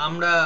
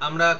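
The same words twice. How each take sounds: The two takes are said the same way.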